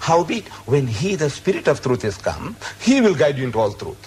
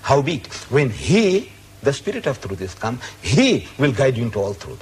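First: The pronouns get no special emphasis. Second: The pronouns are said with extra emphasis.

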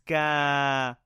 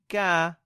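First: The vowel is held for two counts. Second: The vowel is short. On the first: "But with the small alif on top, it's ka" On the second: "Normal one would be ka"

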